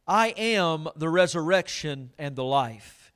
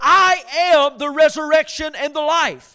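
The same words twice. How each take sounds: First: Slow, measured reading of the verse; solemn scripture reading. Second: Loud, ringing proclamation of the verse; preached verse. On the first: Pastor reading scripture to the church, slow and solemn. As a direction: read it slowly to the congregation. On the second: Pastor proclaiming the verse to his congregation, loud. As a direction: proclaim it loudly to the room. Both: Acted.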